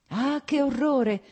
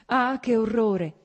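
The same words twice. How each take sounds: First: Drawn-out cry of horror, stress on "che"; slow, loud "Ah, che orrore!" leaning on "che"; horrified exclamation. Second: Slow, loud cry with the weight on "Ah"; "Ah" stretched and stressed, "che orrore" falling; anguished repeat opening on a long "Ah"; horrified exclamation. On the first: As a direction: near tears, "che" pushed hard. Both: Acted.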